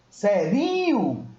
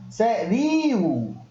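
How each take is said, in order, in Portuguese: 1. O i depois do r é forte e cheio. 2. O i depois do r é forte e cheio.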